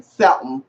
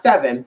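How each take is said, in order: First: "seven" said lower as "se'm"; Southern pronunciation. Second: Said in the usual way. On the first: Shown as a demonstration. Showing how he said it, "seven" slurred to "sebm". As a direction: swallow the middle of "seven" into an m. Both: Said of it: "Not seven".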